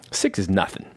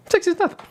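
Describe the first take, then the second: First: Said in the usual way. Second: Very high put-on little voice; joking squeaky echo. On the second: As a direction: repeat it in a tiny falsetto. Repeats own line in put-on voice.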